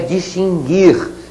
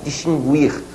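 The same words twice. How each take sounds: First: The U after the G is silent. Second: The U after the G is pronounced. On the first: The speaker calls it right. "sem pronunciar a letra U" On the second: The speaker calls it wrong. "muita gente por aí fala distinguir. A pronúncia não é essa"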